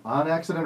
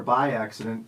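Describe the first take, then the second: First: "on" set against "by"; weight on "on" in "on accident"; stress on ON. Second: "by" set against "on"; weight on "by" in "by accident"; stress on BY. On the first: Host restating first choice, stress on "on". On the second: Host restating second choice, stress on "by". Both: Shown as a demonstration. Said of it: "when people say it that way".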